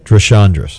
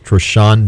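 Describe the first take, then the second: First: The name ends with an s sound. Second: The name ends without an s sound. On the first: The speaker calls it wrong. "Don't pronounce the S at the" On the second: The speaker calls it right. "So it's Trishandra"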